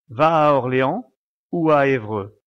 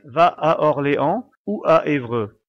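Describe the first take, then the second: First: The neighbouring vowels run smoothly into each other. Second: The neighbouring vowels are clearly broken apart. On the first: "on fait généralement une sorte de liaison entre les voyelles" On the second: "il faut bien séparer les voyelles comme si on disait"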